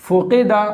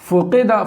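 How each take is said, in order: Both takes have the same delivery.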